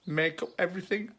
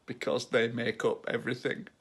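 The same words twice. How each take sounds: First: Higher, quicker repeat of the punchline; prompting the punchline. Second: Said in the usual way. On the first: Real, not acted. Teacher re-explaining the atoms joke, higher and quicker. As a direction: nudge them to get it, pitched up.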